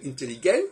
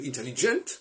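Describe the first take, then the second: First: The word is said with a German pronunciation. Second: The word is said with an English pronunciation. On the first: "Les Allemands vont dire intelligent" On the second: "les Anglais vont dire intelligent"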